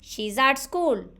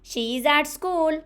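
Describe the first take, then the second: First: She and is merge into one short syllable. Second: She and is are said as two full words.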